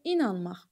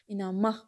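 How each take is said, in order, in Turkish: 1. Vurgu birinci hecededir. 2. Vurgu son hecededir. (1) "i-nin üzərinə atın" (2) "axıra deyin"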